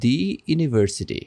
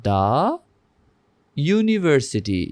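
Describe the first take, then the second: First: "দি university" with "দি" said as thee, the wrong way. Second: "দা university", "দা" said as thuh, slowly. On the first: Teacher showing students the wrong pronunciation, "the" as thee. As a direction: say "দি" as thee before university, as the mistake. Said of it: "এখানে কি এরকম হবে?". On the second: Teacher showing students the correct slow "the" before university. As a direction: say "দা" as thuh, then a clear yoo in university, slowly. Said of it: "এখানে হবে দা university". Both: Shown as a demonstration.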